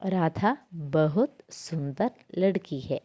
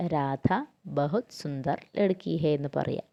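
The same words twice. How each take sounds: First: Each Hindi word set apart slowly; teacher spelling out the example for students, slow and clear; slow example sentence. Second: Said in the usual way. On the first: Shown as a demonstration. Slow, deliberate dictation. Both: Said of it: "For example ആയിട്ട് പറയുകയാണെങ്കിൽ".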